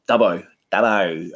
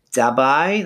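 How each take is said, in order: First: Said in the usual way. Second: Dubbo with a higher, rising last syllable, like "Dub-bye"; Dubbo accent. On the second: Shown as a demonstration. Man imitating how his family's town talks, Dubbo accent. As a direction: rural New South Wales lilt lifting the end of Dubbo. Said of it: "they kinda talk like this".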